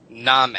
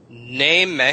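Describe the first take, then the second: First: "Name" said as "nahm" with an open ah vowel; old pronunciation. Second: "Name" with a modern ay vowel, "naym"; modern pronunciation. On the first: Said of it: "would have been Name". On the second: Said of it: "So you go Name". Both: Shown as a demonstration.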